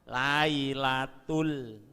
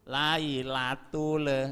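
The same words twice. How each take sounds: First: The final l stops cleanly without an echo. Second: The final l bounces with an added echo. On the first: The speaker calls it right. "Jadi tidak ada pantulan" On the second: The speaker calls it wrong. "Lailatul salah"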